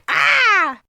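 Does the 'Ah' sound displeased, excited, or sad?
displeased. The cry sounds displeased.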